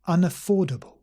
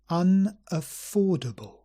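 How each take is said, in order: First: The word is said at normal speed. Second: The word is said slowly. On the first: "at normal speed" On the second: "So slowly first"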